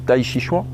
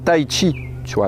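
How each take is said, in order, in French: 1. Le nom est prononcé avec des sons français. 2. Le nom est prononcé avec des sons proches du chinois. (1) "la phonétisation euh, française quand on dit Tai Chi Chuan" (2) "se rapprocherait plus de comment ça se dit en chinois"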